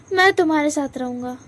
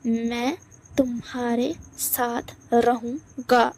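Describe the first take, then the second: First: Said in the usual way. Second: रहूँगा drawn out slow and firm; slow insistent repeat. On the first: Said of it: "तुमने अभी अभी क्या कहा?". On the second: Acted. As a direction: spell out तुम्हारे साथ रहूँगा slowly. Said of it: "आया समझ में तुम्हें?".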